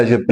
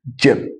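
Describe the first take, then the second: First: جب with a soft zh, no d before it; common soft J. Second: جب starting with a light d, as in English jeep. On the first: Retold or imitated. Teacher quoting how people say it, soft J. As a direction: say جب starting like French j. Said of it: "الناس بتقول عليها جب". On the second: Shown as a demonstration. Teacher showing the English name, light d before J. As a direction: begin جب on dj. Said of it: "دال خفيفة كده في النطق".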